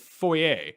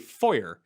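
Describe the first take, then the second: First: The word is said with a French pronunciation. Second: The word is said with an American pronunciation. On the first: The speaker calls it right. "instead of foyer" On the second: The speaker calls it wrong. "Americans who say foyer"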